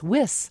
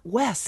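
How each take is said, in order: First: The syllable sounds like 'wis'. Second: The syllable sounds like 'wes'. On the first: The speaker calls it right. "it's Wis" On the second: The speaker calls it wrong. "it's not Wes"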